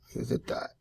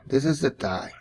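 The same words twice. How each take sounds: First: Soft unvoiced whisper, to himself. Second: Said in the usual way. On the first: Real, not acted. Art teacher whispering while drawing the leg. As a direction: murmur the label under his breath as he draws. Drawing lesson, repeating a label.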